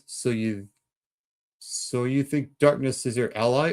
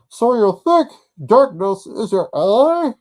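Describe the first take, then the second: First: It is said in his normal voice. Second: It is said in a Bane impression.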